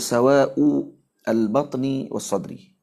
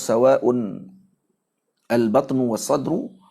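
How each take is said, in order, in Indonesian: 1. Dua kata terakhir berakhir dengan bunyi i. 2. Kata-kata itu berakhir dengan bunyi u, yang pertama dengan n. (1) "jarril batni was-sadri ala al-idhafah" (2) "baca dengan tanwin"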